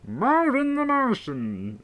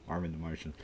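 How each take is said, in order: First: High, drawn-out cartoon alien voice; high-pitched alien introducing himself; Marvin the Martian. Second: Said in the usual way. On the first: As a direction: stretch it slowly in a high character voice.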